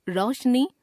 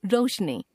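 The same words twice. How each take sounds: First: रोशनी as "raushni" with open au; mispronounced o. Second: Said in the usual way. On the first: Shown as a demonstration. Teacher showing a common error, रोशनी with au for o. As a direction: put "au" for "o" in रोशनी. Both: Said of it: "ओ, औ संबंधी अशुद्धियां".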